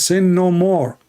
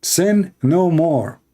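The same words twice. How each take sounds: First: Raised, commanding quote; quoting the Lord. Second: Slow, weighty repeat of Sin; slow emphatic repeat. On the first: Retold or imitated. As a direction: proclaim it high and firm. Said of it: "he says". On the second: Shown as a demonstration. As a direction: stretch each word out slowly.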